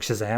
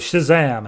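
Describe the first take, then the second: First: It is said weakly, without force. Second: It is said loudly, with strong force.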